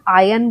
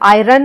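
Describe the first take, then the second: First: No r sound is heard in the middle. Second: An r sound is heard in the middle. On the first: The speaker calls it right. "हम आयन बोलते हैं" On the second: The speaker calls it wrong. "इसमें हम आयरन नहीं बोलते"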